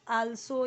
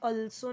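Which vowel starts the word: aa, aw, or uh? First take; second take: aa; uh. First: It starts with a long open aa vowel. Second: It starts with a short uh vowel. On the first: "आल्सो या अल्सो नहीं" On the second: "आल्सो या अल्सो नहीं"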